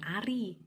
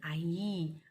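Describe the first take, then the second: First: The middle consonant is an r. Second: The middle consonant is a y sound. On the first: The speaker calls it right. "bukan Ari" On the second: The speaker calls it wrong. "malas mengucapkan bunyi ... R"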